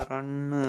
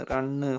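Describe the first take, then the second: No difference in how they are said.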